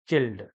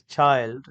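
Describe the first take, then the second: First: Put-on "chilled" for child, with a short i; mispronounced child. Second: Put-on "child" with a long i, as in "mild"; correct child. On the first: Teacher showing what many learners say, child mispronounced as "chilled". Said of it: "that many learners pronounce as". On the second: Teacher correcting many learners, "child" with a clear long i. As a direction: say "child" with the full eye diphthong. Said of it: "It is child". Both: Shown as a demonstration.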